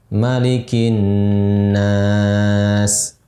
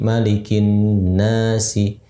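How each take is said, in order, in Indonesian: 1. Vokal kata terakhir panjang, berakhir dengan konsonan. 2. Vokal kata terakhir pendek, berakhir dengan vokal. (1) "Lebih lama empat harakat" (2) "Jadi disambung begitu dua semuanya"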